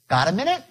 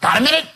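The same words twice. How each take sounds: First: It is asked in a relaxed, easygoing tone. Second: It is asked in a pressing, tense tone. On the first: It is no big deal. The speaker calls it right. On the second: Something unwelcome is about to be pushed. The speaker calls it wrong.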